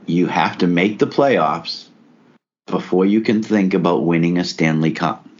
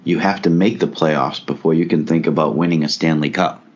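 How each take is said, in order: First: It is said more slowly. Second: It is said at normal speed.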